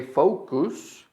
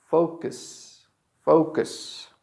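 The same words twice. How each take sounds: First: "focus" ending in a full oo, foh-koos; incorrect second vowel. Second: "focus" with weak second vowel, FOH-kus; correct reduced vowel. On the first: Teacher shows learners the mistake, "focus" as foh-koos. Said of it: "It's not correct to say". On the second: Teacher gives the correct form, "focus" as FOH-kus. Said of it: "The correct is". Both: Shown as a demonstration.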